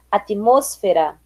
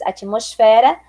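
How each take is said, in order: First: "atmosfera" stressed on MOS, slow and falling; Spanish stress. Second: Said in the usual way. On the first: Shown as a demonstration. Teacher contrasting with Portuguese, "atmosfera" stressed on MOS. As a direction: say "atmosfera" as at-MÓS-fera. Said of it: "diferença entre as palavras heterotônicas". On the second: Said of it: "em português".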